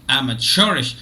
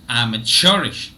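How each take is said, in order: The two takes are said the same way.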